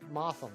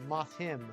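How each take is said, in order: First: The stress is on the first syllable. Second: The stress is on the second syllable. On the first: "We do the enunciation on the moth" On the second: "the enunciation would be on the him"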